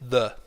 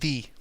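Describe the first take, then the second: First: It uses the form said before a consonant. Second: It uses the form said before a vowel. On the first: The next word starts with a consonant. "If the first letter of the next word is a consonant, then you say the" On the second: The next word starts with a vowel. "If the first letter of the next word is a vowel, then you say the"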